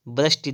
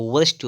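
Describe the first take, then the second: First: वृष्टि starting with b; closed-lip b opening वृष्टि; wrong pronunciation. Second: वृष्टि starting with v; correct pronunciation. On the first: Teacher showing the error, वृष्टि as brashti. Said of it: "वृष्टि नहीं होता है". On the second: Teacher correcting, वृष्टि as vrishti. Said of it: "वृष्टि होता है". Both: Shown as a demonstration.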